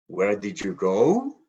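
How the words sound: The voice rises at the end.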